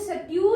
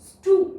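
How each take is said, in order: First: The vowel is said as 'yoo'. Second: The vowel is said as a plain long 'oo'. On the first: The speaker calls it wrong. "सट्यू नहीं" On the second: The speaker calls it right. "ऊ की long sound है"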